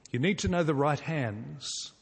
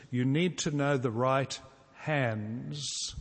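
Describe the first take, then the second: First: Said in the usual way. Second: Slow and deliberate. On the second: Shown as a demonstration. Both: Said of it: "it goes like this".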